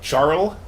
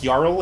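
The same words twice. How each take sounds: First: The word begins with a J sound. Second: The word begins with a Y sound. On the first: The speaker calls it wrong. "and not jarl" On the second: The speaker calls it right. "the J is pronounced like a Y"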